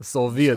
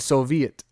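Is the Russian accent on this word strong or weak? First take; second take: strong; weak. First: It has a strong Russian accent. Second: It has only a weak Russian accent. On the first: The speaker calls it right. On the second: The speaker calls it wrong.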